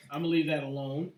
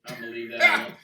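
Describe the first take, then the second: First: Said in the usual way. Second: Laughing. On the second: Real, not acted. Laughing at joke.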